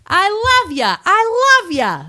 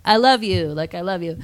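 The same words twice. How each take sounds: First: Put-on loud, very high New York accent; New York construction guy. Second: Said in the usual way. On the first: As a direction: bellow it like an exaggerated New Yorker. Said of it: "the New York, like, construction guy". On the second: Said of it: "like, through telephone".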